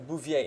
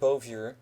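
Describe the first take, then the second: First: The name is pronounced the French way. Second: The name is pronounced the English way. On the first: "I will pronounce it as it is in French" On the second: "instead of"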